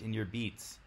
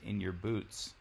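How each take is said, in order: First: The vowel in boots sounds like beet. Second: The vowel in boots sounds like boot. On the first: This is the older Northern English or Scots way. "you might still hear some older people that say" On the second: This is the standard way. "instead of"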